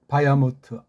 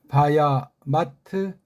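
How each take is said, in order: First: The last syllable has an 'o' vowel. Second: The last syllable has an 'a' vowel. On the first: "아자랑 오자 맛이 좀 달라진단 말이에요" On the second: "마트라고도 읽는 사람 있겠는데"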